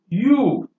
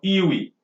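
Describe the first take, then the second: First: It is said as one syllable, like 'you'. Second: It is said as two syllables, ee-wee. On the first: The speaker calls it right. "That is how it should be pronounced" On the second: The speaker calls it wrong. "it is not expected that we should pronounce it as we, you or iwi"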